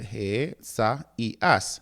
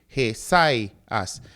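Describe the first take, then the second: First: The word is said in four separate syllables. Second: The word is said in three syllables. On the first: The speaker calls it right. "this word consists of four sy- syllables" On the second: The speaker calls it wrong. "not three"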